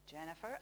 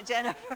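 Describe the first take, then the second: First: Said in the usual way. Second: Laughing. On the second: Real, not acted. Correcting herself, laughing at mistake.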